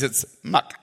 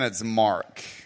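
First: It is said in a Chinese accent. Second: It is said in an American accent.

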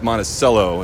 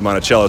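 First: It is pronounced the Minnesota way. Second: It is pronounced the Virginia way. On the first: This is the name of the Minnesota town. The speaker calls it right. "is how they pronounce it up in Minnesota" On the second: This is the name of the Virginia estate. The speaker calls it wrong. "in Virginia, ... we say Monticello"

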